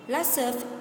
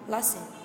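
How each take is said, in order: First: Each word is said separately and in full. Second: The words run together in a reduced form.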